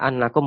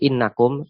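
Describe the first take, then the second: First: The word begins with an open 'a' vowel. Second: The word begins with a front 'i' vowel. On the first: The clause works as a verbal noun after the verb. "Kenapa boleh dibaca annakum ataupun innakum" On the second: The verb's effect on the clause is suspended. "Kenapa boleh dibaca annakum ataupun innakum"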